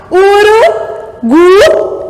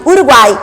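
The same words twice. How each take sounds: First: "Urugu" stretched out slowly, "uru... gu"; wrongly broken word. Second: Said in the usual way. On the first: Shown as a demonstration. Teacher shows a forbidden triphthong break, "Urugu" slowly chopped. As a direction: draw out "Urugu" higher, cut off before the "ai". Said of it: "Não pode".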